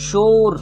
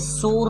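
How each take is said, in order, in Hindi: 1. पहली ध्वनि तालव्य sh है। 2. पहली ध्वनि दंत्य s है। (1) "मैंने कहा शोर" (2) "ये शोर नहीं है"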